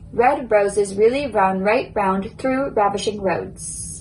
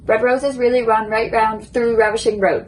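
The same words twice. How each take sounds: First: The sentence is spoken at a moderate speed. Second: The sentence is spoken as fast as possible. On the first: "now I will say it a little bit quicker" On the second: "now I'm going to try to say it as quick as I can"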